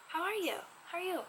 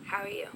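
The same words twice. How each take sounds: First: Higher, inquiring how are you; curious, probing question voice. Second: Said in the usual way. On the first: Shown as a demonstration. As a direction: ask it with raised brows. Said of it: "look at my facial expressions".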